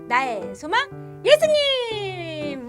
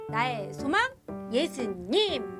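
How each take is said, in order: First: It is said very loudly, almost shouted. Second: It is said at a moderate volume.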